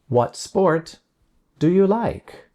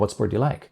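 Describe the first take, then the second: First: It is said with exaggerated intonation. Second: It is said with natural, plain intonation.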